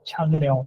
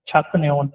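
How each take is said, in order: First: The first syllable ends in an ng sound. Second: The first syllable ends in a k sound. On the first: The speaker calls it right. "आवाज आती है छंग न्योन" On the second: The speaker calls it wrong. "छक न्योन पढ़ेंगे तो साउंड गलत होगा"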